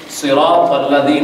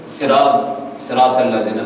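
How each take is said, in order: First: Slow صراط with a full, thick ط; careful Arabic صراط الذین, drawn out; heavy ta. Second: صراط with thin s and t; untrained صراط الذین, light consonants; common mispronunciation. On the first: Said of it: "تو کے ساتھ ہے". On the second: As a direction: say الذین with a z, Urdu style. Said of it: "اب جو ہم لوگ پڑھتے ہیں". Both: Shown as a demonstration.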